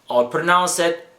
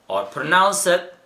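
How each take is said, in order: No difference in how they are said.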